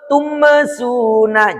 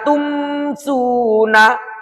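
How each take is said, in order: First: A short vowel is added after the m. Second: The m closes cleanly with no added vowel. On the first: The speaker calls it wrong. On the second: The speaker calls it right.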